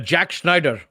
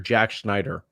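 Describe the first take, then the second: First: It is said in an imitated Pakistani voice. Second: It is said in his natural voice.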